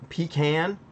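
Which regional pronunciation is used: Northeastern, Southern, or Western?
Southern. It is said with a Southern pronunciation. "so pecan is a southern. It's a southern saying"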